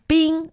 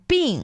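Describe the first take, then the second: First: The syllable is said on a high level pitch. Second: The syllable is said with a sharply falling pitch. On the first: It means ice. "first tone" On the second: It means sickness. "bing is fourth tone"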